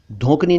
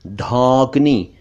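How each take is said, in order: First: धोंकनी with rounded "o"; quick "oh" in धोंकनी; mispronounced धौंकनी. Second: धौंकनी slowly with open "au"; long "aw" in धौंकनी; correct धौंकनी. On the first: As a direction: say धोंकनी as "dhonkni". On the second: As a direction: say धौंकनी as "dhaunkni". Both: Shown as a demonstration. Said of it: "धोंकनी नहीं".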